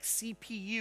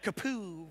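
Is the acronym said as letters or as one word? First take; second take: letters; one word. First: Each letter is spoken separately. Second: It is spoken as a single word. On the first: The speaker calls it right. "Sometimes you want the letters to be spelled out like CPU" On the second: The speaker calls it wrong. "It would be odd to call it a kapoo"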